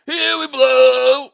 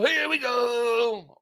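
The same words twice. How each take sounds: First: Loud, slow, drawn-out sneer on "blow"; mocking announcer call. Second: Slow, drawn-out mock announcer call; announcer catchphrase. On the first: Streamer jeering the broadcast catchphrase, loud slow mock call. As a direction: belt the catchphrase as a jeer, louder, slow. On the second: Streamer answering a chat request, slow mock announcer call. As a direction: stretch it out like the broadcast call. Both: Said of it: "can I get a "here we go"?".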